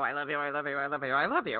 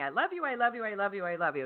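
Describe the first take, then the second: First: It sounds irritated and annoyed. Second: It sounds cheerful and warm.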